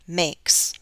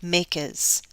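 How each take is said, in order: First: The plural ending adds no extra syllable. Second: The plural ending adds an extra syllable. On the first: The speaker calls it right. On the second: The speaker calls it wrong.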